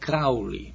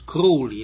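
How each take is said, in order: First: The first syllable does not rhyme with 'crow'. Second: The first syllable rhymes with 'crow'. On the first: The speaker calls it wrong. "not Crowley" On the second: The speaker calls it right. "like a crow that flies in the air"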